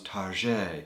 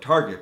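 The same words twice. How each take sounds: First: The name is said with French-style sounds. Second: The name is said with plain English sounds. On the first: It is a fancier, classier store. "dress it up and call it French" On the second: It is an ordinary store. "your normal simple department store like Target"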